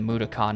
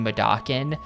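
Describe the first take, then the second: First: The last syllable is said like 'kon'. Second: The last syllable is said like 'kin'. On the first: The speaker calls it right. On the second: The speaker calls it wrong.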